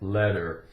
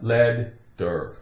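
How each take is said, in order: First: The middle consonant is one quick D sound. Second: The middle consonant is split into two D sounds. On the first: The speaker calls it right. "So the T sounds like a D, one D" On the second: The speaker calls it wrong. "It's not lead der"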